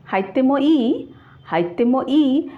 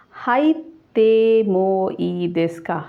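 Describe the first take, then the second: First: "হাইতেমো ই" with a stronger rise on the final ই; casual "হাইতেমো ই", slower, with the question carried by the rising ই. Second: "হাইতেমো ই দেস্কা?" drawn out slowly as a polite formal question; slow formal "হাইতেমো ই দেস্কা?" with the question carried by দেস্কা. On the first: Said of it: "ইন্টোনেশনটা একটু জোরে হবে". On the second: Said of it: "formal ওয়েতে হয়ে কথা বলা হচ্ছে". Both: Shown as a demonstration.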